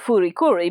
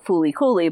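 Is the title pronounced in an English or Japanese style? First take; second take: Japanese; English. First: It is pronounced with Japanese-style sounds. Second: It is pronounced with English-style sounds. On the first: "the pronunciation's more Fooly Cooly because English and Japanese don't share all the same sounds" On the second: "it was allegedly an English title"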